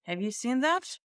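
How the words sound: The pitch keeps going up through the whole question. It signals surprise or something behind the question. "So I'm going to go up, up, up, up"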